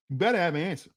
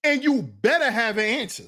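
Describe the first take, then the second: First: Lower, softer warning; quieter repeat. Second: Said in the usual way. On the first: Shown as a demonstration. Warning the fellas again, low and soft. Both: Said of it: "repeat quieter".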